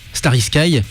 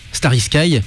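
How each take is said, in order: First: It is said with an English accent. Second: The same.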